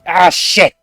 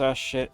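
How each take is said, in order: First: It sounds like a serious, alarmed reaction. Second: It sounds like a mild, minor annoyance.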